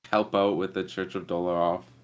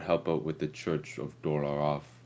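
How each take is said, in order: First: It is said in the speaker's natural voice. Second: It is said in a put-on character voice. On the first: The player describes the character's choice. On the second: The character speaks for himself.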